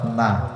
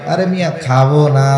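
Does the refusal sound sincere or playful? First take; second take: sincere; playful. First: The refusal sounds plain and sincere. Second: The refusal sounds playful, really meaning yes.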